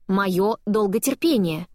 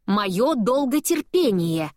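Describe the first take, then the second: First: Slow, with долготерпение drawn out; stress on долготерпение. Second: Slow and higher, моё pushed up; stress on моё. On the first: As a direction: lean hard on долготерпение. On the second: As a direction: hit моё, drawn out very slowly. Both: Acted.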